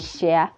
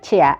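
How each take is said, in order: First: The word begins with an sh sound. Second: The word begins with a ch sound. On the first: The speaker calls it wrong. "I would say share" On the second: The speaker calls it right. "instead of saying chair"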